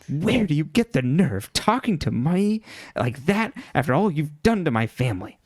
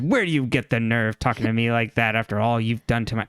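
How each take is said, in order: First: It is said in a put-on Byron voice. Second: It is said without the Byron character voice.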